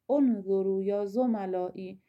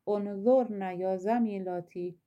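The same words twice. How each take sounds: First: انظروا said unzurū with a long ū ending; masculine plural form. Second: انظرن said unzurna ending in -na; feminine plural form. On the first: Teacher contrasting gender forms for students, masculine ending clearly said. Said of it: "جملهٔ اول به جمع مذکر میگه". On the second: Teacher contrasting gender forms for students, feminine ending clearly said. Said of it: "جملهٔ دوم به خانم ها، به جمع مؤنث". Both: Shown as a demonstration.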